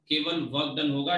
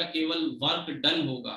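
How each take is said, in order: First: Said in the usual way. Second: "केवल work डन होगा" said slowly, leaning on "डन"; slow emphatic repeat. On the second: Shown as a demonstration. Teacher slowly stressing "डन" so students note it down. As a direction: stress "डन", drawing the line out slowly.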